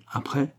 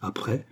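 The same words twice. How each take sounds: First: Soft, higher, rising prompt; quiet questioning lift. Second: Hushed, emotional echo of a question; understated, softly moved; trembling with emotion. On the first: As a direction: press gently for the rest. Countess presses count to continue. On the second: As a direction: say it softly, holding emotion back. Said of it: "la voix tremblait d'émotion". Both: A narrator's reading.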